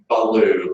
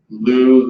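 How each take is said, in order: First: An extra vowel separates the b and l. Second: The b and l form a tight cluster. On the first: The speaker calls it wrong. "if your students are saying baloo" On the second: The speaker calls it right. "have them work first with just blue"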